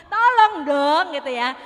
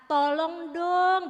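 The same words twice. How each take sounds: First: "Tolong dong" shouted much louder; angry. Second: Drawn-out begging "tolong dong", very slow; pleading. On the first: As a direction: bark "Tolong dong" loudly like you're fed up. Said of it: "dengan nada marah". (nada marah, "Tolong dong" diteriakkan keras) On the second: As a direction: plead for help, stretching "tolong dong" out slowly. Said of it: "dengan memelas". (memelas, "tolong dong" diucapkan sangat pelan) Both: Shown as a demonstration.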